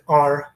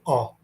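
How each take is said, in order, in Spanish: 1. Se dice con acento americano. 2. Se dice con acento británico. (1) "el británico no dice are" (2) "dice are"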